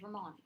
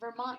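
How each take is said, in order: First: The final T becomes a glottal stop. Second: The final T is fully pronounced.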